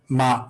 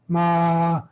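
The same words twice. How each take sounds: First: The pitch stays level in the middle. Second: The pitch is held high. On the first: "the regular tone is like" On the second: "high tone"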